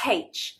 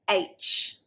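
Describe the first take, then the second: First: The letter name begins with a breathy h sound. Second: The letter name begins with a vowel, no h. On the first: The speaker calls it wrong. "English people will pronounce it with a H" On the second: The speaker calls it right. "But the actual letter"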